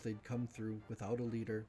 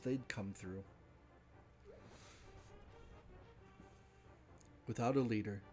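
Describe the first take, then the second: First: There is no pause before 'without a leader'. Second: There is a pause before 'without a leader'. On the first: The speaker calls it right. "no punctuation" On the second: The speaker calls it wrong. "I keep pausing there because there's a break in the paragraph"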